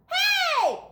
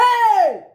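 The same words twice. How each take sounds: First: Very high shouted hey; children shouting together; kids yelling. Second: High, loud shout of hey; angry teacher yell. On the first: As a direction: call out like a group of kids. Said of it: "yelled the kids". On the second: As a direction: bark hey at the dog. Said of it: "yelled the teacher". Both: A narrator's reading.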